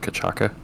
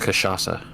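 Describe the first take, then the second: First: The word is said with hard k sounds. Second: The word is said with soft sh and s sounds. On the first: The speaker calls it wrong. "Not how you pronounce that in the slightest" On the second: The speaker calls it right. "It's pronounced Kashasa"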